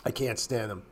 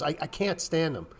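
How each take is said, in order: First: Softer, lower muttered repeat; quiet repeat. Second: Said in the usual way. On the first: Real, not acted. Repeating his dislike of chart painters, softer and lower. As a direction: drop the voice and say it again to yourself.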